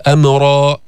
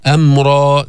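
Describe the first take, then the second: First: أمرا with an extra short vowel after م; wrongly vowelled meem. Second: أمرا with م closing straight onto ر; vowelless meem. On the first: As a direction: loosen the م of أمرا into its own syllable. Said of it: "ما تقول أمرا". (أمرا بتحريك الميم خطأً) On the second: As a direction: hold أمرا to two syllables, no vowel after م. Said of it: "سكن الميم". (أمرا بتسكين الميم) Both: Shown as a demonstration.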